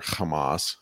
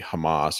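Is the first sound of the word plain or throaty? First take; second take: throaty; plain. First: The first sound is rasped in the throat. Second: The first sound is a plain, light h.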